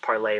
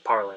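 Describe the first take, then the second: First: The word ends in an 'ay' sound, no R. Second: The word ends in an 'er' sound with R. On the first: This is the intended, French-style pronunciation. "it's supposed to pronounce parlay" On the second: This is how people commonly say it now. "people just pronounce it parlor now"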